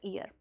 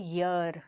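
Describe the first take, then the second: First: The word begins with a plain vowel sound. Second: The word begins with a y sound. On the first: The speaker calls it wrong. "Not ईयर" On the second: The speaker calls it right. "Sound है ईयर"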